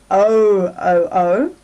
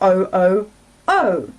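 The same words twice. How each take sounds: First: The stress is on the first syllable. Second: The stress is on the third syllable. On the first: "the first one" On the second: "or third can be stressed"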